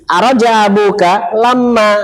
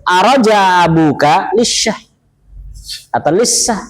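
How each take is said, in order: First: Slow, higher, carefully voiced Arabic quote "Araja abuka lama"; Fusha Arabic. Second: Slow, voiced colloquial Arabic quote "Araja abuka lisyah"; dialect Arabic. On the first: Teacher to students, slow classical Arabic example. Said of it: "itu fus-, fusha". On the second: Teacher contrasting colloquial Arabic, slowly. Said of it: "di sana ada bahasa amiyahnya". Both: Shown as a demonstration.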